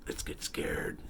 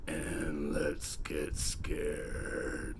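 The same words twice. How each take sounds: First: Breathy spooky whisper. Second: Very slow, low creepy voice; spooky voice. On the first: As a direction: whisper the promise eerily. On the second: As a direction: drag it out like a horror host. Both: Acted. Spooky sign-off.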